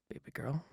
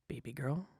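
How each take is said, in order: Both takes have the same delivery.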